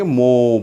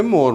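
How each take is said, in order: First: मो, "more" with silent R; मो ending on a drawn-out vowel; British pronunciation. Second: मोर with the final R sounded; मोर ending on a clear R; American pronunciation. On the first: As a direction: drop the final R, leaving a long मो. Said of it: "इसको कैसे sound करेंगे?". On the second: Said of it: "यहाँ पे मोर बोलेंगे". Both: Shown as a demonstration.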